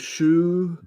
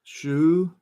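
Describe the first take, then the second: First: The vowel is a rounded 'oo'. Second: The same.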